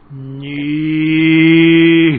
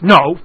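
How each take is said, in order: First: It is said slowly, drawn out. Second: It is said quickly and short.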